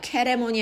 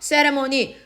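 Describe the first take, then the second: First: The word begins with a k sound. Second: The word begins with an s sound. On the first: The speaker calls it wrong. "캐레모니 아니라" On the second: The speaker calls it right. "세 발음이에요"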